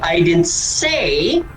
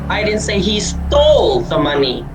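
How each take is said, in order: First: The word 'say' is stressed. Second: The word 'stole' is stressed. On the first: It was implied rather than said. "hindi ako nagsalita. But maybe I implied" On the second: He may have only borrowed it. "Hindi ko sinasabi na ninakaw niya"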